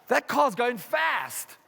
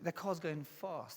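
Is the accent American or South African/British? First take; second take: American; South African/British. First: It is said in an American accent. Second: It is said in a South African accent.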